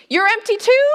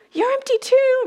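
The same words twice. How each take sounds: First: Surprised question. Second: Deflated statement. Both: Shown as a demonstration.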